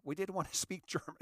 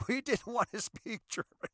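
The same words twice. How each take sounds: First: Said in the usual way. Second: Whispered through a laugh, much higher. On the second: Pretend. Speaker repeats the joke to the crowd as a giggling whisper. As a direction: breathe it out as a giggling aside.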